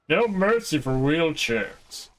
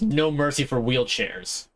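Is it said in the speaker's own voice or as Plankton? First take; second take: Plankton; own voice. First: It is said in an imitation of Plankton. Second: It is said in the speaker's normal voice.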